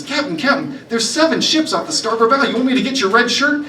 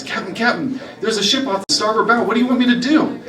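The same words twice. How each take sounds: First: Much higher and louder, frantic pirate lad; panicked recruit. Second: Put-on higher, rising alarm from the young pirate; urgent new recruit. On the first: Acted. Recruit spotting seven ships and panicking to the captain, frantic and loud. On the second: New recruit alerting the pirate captain, urgent call.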